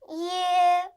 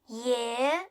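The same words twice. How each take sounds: First: The pitch stays high and level. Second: The pitch rises from middle to high.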